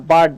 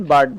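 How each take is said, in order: First: বার্ড drawn out slowly, the vowel said as a long আ; slow careful demo. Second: Said in the usual way. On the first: Shown as a demonstration. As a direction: stretch বার্ড slowly so the আ sound is heard. (বার্ড ধীরে টেনে আ-এর মতো উচ্চারণ) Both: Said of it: "আর চলে এসেছে, তাই কিন্তু আমরা আয়ের মতো উচ্চারণ করি".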